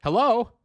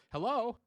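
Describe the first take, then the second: First: A loud, high call of hello into the mic. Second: Said in the usual way. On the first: Shown as a demonstration. Testing her voice, she calls out a loud high hello. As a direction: call it out brightly to test the voice. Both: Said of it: "Is that how I sound?".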